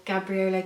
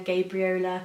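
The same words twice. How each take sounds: First: Gabriola with a short "a", as in "gab"; short-a pronunciation. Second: Gabriola with a long "a", as in "gable"; long-a pronunciation. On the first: Sewist trying out a pattern name, Gabriola with a short first "a". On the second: Sewist offering another way to say the pattern name, Gabriola starting "GAYB". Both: Shown as a demonstration.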